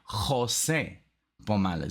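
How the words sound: The name is said with Spanish pronunciation.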